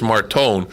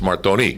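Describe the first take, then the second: First: The surname is said the American way. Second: The surname is said the Italian way. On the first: "Here it's" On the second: "In Italy, it's"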